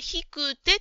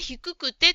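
First: One 'ku' syllable is dropped. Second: Both 'ku' syllables are pronounced. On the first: The speaker calls it wrong. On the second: The speaker calls it right.

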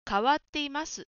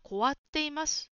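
First: The first syllable is ka. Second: The first syllable is ko. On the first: The speaker calls it right. "変わっていますですね" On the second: The speaker calls it wrong. "こじゃなくてかですね"

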